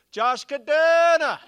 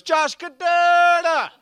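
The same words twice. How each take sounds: First: Put-on high, loud Jamaican accent, name stretched out; booming, high-pitched mock Jamaican caller; positive Jamaican woman. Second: Even louder, very high Jamaican holler, heavily drawn out; insistent, stretched-out Jamaican shout; purposeful Jamaican repeat. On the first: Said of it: "this positive Jamaican woman". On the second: Retold or imitated. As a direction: belt the name with purpose in a Jamaican accent. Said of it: "she repeated it with purpose".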